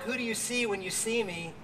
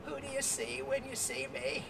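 First: Said in the usual way. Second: Put-on higher, soft croaky voice of an old woman; a lightly croaky old lady asking quietly. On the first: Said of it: "In this book". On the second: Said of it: "croaky voice she said".

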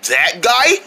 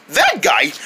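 First: "That guy" rising high, as a question; incredulous question. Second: "that guy" falling low, as a statement; confirming answer. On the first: Monkey sees the opponent, incredulous rising "That guy". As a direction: ask "That guy" with a raised, questioning lift. Doubting question, then answered. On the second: Friend confirms the opponent, falling "that guy". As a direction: settle "that guy" downward to confirm. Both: Acted.

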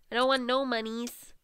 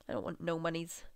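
First: Higher, playful whine; playful raised repeat. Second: Said in the usual way. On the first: Pretend. Player repeating herself while managing money, playful higher voice.

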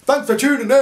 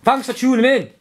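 First: High, bright burst of intro; mock hype intro; sudden cheery call. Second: High, loud cheery call; hammed-up hype greeting; loud sign-off. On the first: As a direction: pop it out of nowhere. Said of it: "all of a sudden it goes". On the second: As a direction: burst out with it. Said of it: "I could say something like".

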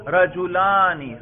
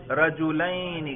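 First: رجلانی slow, raised, with a long "-aani"; demonstrated case ending. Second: رجلین very slow, with a drawn-out "-ayni"; demonstrated case ending. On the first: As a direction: stretch the "aa" in رجلانی loudly. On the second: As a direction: stretch the "ay" glide in رجلین. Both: Shown as a demonstration. Teacher testing students by ear, demonstrated ending. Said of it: "میں صرف تلفظ کے ذریعے آپ کو بتلا رہا ہوں".

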